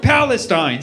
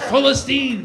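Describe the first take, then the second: First: The name has an English pronunciation. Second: The name has an Arabic pronunciation. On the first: The name feels lifeless. The speaker calls it wrong. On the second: The name feels full and free. The speaker calls it right.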